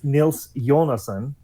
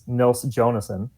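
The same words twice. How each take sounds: First: The surname begins with a Y sound. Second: The surname begins with a J sound. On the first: This is how the name is said in Europe. "in the Slavic world" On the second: This is how the name is said in America. "in America, ... because letters mean things in America"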